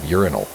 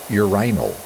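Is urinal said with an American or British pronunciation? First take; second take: American; British. First: It is said with an American pronunciation. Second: It is said with a British pronunciation. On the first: The speaker calls it right. "instead of" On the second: The speaker calls it wrong. "I've heard British people pronounce it"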